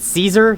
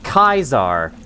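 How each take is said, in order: First: The name begins with an S sound. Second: The name begins with a K sound. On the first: The speaker is not on Caesar's side. "If people pronounce it Caesar, they're not on his side" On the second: The speaker is on Caesar's side. "If they pronounce it Kaiser, they are on his side, because it's the true way"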